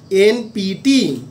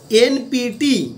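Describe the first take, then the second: First: Very slow, spaced-out NPT; drawn-out NPT for note-takers; slow dictation. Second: Said in the usual way. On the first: Shown as a demonstration. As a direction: say NPT letter by letter, stretching each one. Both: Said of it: "আমি আস্তে আস্তে বলছি".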